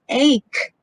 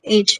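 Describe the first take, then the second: First: The word ends with a 'k' sound. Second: The word ends with a 'ch' sound. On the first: The speaker calls it right. "It's ache" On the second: The speaker calls it wrong. "why are you saying H"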